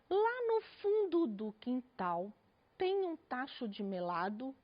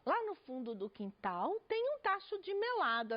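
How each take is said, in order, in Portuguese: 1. Lê-se com seriedade, fazendo pausa em cada pontuação. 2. Lê-se com entusiasmo, com as sílabas emendadas. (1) "com essa seriedade, pontuando?" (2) "eu disse de uma forma entusiasta"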